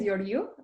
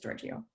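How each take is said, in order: First: The surname is said with a Greek pronunciation. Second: The surname is said with an English pronunciation. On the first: "the Greek pronunciation is" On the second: "the English pronunciation is"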